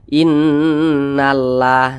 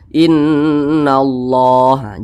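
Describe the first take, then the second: First: The 'lah' is said thin and light. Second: The 'lah' is said thick and heavy. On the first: The speaker calls it wrong. "jangan dibaca innallah" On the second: The speaker calls it right. "maka kalimat Allah dibaca tebal, dibaca tafkhim"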